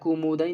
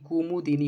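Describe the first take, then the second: First: The word is said without a vowel after 'd'. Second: The word is said with an 'i' after 'd'. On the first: The speaker calls it wrong. "यह कुमुदनी नहीं" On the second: The speaker calls it right. "बल्कि कुमुदिनी होता है"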